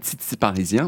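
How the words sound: The t sounds are pronounced like ts. This is how Quebecers say it. "ils mettent souvent des S après les T"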